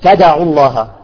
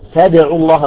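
First: The echo on the d leans toward 'a'. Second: The echo on the d stays neutral.

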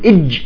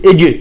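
First: The final consonant is held and stops abruptly. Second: The final consonant releases with a slight bounce. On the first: "بدل ما يقول إج" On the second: "يقول إج"

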